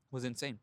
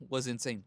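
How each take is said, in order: First: Insane gets the weight, falling and quieter; stress on insane. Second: Was hit hard, then falling; stress on was. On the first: Telling how long he put off talking, stress on insane. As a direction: lean on insane, let it drop. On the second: Repeating it for emphasis, stress on Was. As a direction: punch Was, not insane. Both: Shown as a demonstration.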